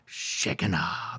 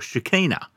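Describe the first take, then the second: First: It is pronounced the Hebrew way. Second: It is pronounced with an American English accent.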